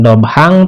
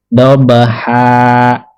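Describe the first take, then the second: First: The word ends with an n sound. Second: The word ends with a long a vowel. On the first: The speaker calls it wrong. "Bukan dobhang" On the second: The speaker calls it right. "tetapi dobha"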